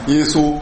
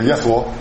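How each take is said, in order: First: It is said with a standard Mandarin pronunciation. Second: It is said with a Shandong dialect pronunciation. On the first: "普通话呢" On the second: "咱们山东话叫耶稣"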